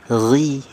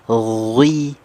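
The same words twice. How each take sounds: First: The syllable is said with reduced heaviness. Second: The syllable is said with full heaviness. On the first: The speaker calls it right. "tetap tebal tapi berkurang ketebalannya" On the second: The speaker calls it wrong. "bukan ghi"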